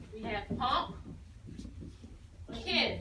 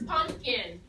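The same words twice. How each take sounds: First: "pump" then a pause, then "kin"; split into syllables. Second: Unhurried whole-word read; whole word, slowly. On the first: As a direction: say "pump, kin" as two separate chunks. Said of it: "So if we do it that way". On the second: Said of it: "Here's the word pumpkin". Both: Shown as a demonstration.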